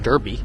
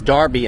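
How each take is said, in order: First: The word is said not rhyming with Barbie. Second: The word is said to rhyme with Barbie. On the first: The speaker calls it wrong. "and not Derby" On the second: The speaker calls it right. "Derby is Derby ... it's not spelled like Barbie"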